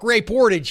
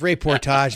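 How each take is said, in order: First: It is said with a Pittsburgh American accent. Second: It is said with a French-style pronunciation. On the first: The speaker is a plain-spoken local guy. "like some Pittsburgh guy" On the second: The speaker sounds sophisticated or pretentious. "What are you, French or something?"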